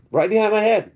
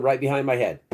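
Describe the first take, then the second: First: Pitched way up, a bit louder; alarmed emphasis. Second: Said in the usual way. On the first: Retold or imitated. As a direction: hit it like the shock just landed. Repeats the detail, much higher.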